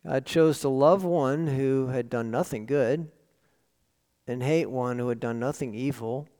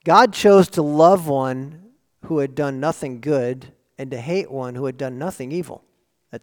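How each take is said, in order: First: Second take: "love" and "hate" leaned on gently; quieter, letting "love" carry the weight; softer repeat, stress on love. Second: GOD hit loud, then hate rushed; first take: "God" punched hard and loud; emphatic first statement. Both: Shown as a demonstration. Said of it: "Or to put it this way, think about this".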